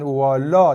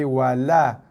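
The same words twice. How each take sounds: First: The word is said with a thick, heavy sound. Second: The word is said with a thin, light sound. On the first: The speaker calls it wrong. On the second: The speaker calls it right.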